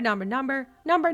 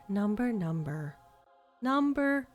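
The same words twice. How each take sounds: First: The words are said quickly without gaps. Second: The words are said slowly with gaps. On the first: The caller forgets someone must write it down. The speaker calls it wrong. "instead of" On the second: The caller is easy to write down. The speaker calls it right. "I always appreciated the ones that were always like"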